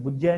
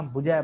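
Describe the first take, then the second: First: ਬੁਝੈ with a doubled, held ਝ; wrong doubled consonant. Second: ਬੁਝੈ with a single, undoubled ਝ; single light consonant. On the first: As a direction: say ਬੁਝੈ as bujjhai, with adhak. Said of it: "ਇਹਨੂੰ ਬੁਝੈ ਨਹੀਂ ਪੜ੍ਹਨਾ". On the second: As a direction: say ਬੁਝੈ as bu-jhai, without adhak. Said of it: "ਬੁਝੈ ਪੜ੍ਹਨਾ". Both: Shown as a demonstration.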